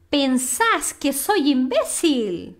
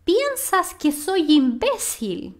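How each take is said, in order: First: Slowly, "Pensás" as pen-SAS; slow model with "Pensás" end-stressed; vos-form stress. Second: Slowly, "Piensas" as PIEN-sas; slow model with "Piensas" front-stressed; tú-form stress. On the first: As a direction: stress the last syllable of "Pensás". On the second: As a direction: stress the first syllable of "Piensas". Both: Shown as a demonstration. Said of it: "vamos falar".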